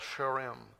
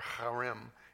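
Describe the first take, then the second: First: The word begins with a soft sh sound. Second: The word begins with a throaty, raspy sound.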